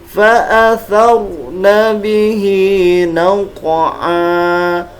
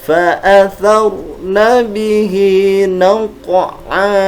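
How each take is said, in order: The two takes are said the same way.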